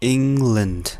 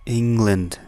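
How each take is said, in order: The two takes are said the same way.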